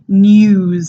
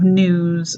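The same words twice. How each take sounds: First: A Y glide comes before the vowel. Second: No Y glide comes before the vowel. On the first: The speaker calls it right. "this J sound here, that U sound like in news" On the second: The speaker calls it wrong. "instead of news"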